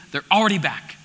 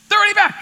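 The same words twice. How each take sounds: First: Said in the usual way. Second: They're punched higher and louder; They're already back said higher, louder, emphatic; stress on They're. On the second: Shown as a demonstration. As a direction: hit They're hard and high.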